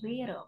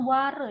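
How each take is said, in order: First: The first vowel sounds like 'eh'. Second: The first vowel sounds like 'ah'. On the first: The speaker calls it right. "tapi were. Mit umlaut ya" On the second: The speaker calls it wrong. "jangan ware ya"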